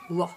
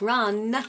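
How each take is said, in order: First: The name ends without any N sound. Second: The name ends with a strong, exaggerated N. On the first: "She didn't say the N at all" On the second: "now she's really overpronouncing it"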